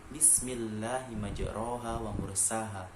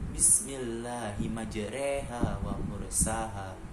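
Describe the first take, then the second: First: The vowel after the r sounds like o. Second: The vowel after the r sounds like e. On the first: "awalnya dibaca" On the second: "Rok menjadi re"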